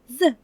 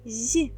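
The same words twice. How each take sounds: First: The z sound is hard, not palatalized. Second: The z sound is soft, palatalized. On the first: "Вимовляємо твердо" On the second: "Вимовляємо його м'яко"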